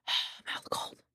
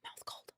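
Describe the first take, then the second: First: Whispering through cold numb lips; breathy whisper, cold mouth. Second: Lips stiff with cold; cold mouth. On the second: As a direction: talk through cold numb lips. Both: Real, not acted.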